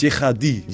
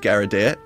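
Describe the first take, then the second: First: The name is said with a French pronunciation. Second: The name is said with a clumsy, misread pronunciation. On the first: This is the accurate original pronunciation. "the French accurate way" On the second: Someone unfamiliar with the name says it this way. "the never said it in their life way"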